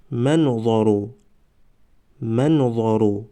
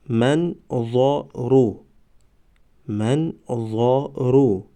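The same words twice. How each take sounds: First: Said in the usual way. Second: Slow, syllables held and separated; slow syllable reading. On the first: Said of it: "به مثل خوانش سوم و چهارم". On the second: Shown as a demonstration. Teacher models first readings for learners, slow syllable by syllable. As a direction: sound it out for learners, pausing between syllables. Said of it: "بار یکم و دویم آهسته".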